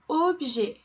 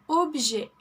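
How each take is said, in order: Both takes have the same delivery.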